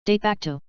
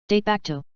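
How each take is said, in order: Both takes have the same delivery.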